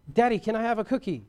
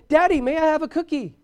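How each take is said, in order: First: Lightly voiced sweet child, a bit higher. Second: High, loud mock bratty kid; griping child. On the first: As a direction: ask dad kindly, like an obedient kid. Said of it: "they're sweet and kind". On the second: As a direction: pester dad in a raised child's voice. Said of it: "they've been griping and complaining".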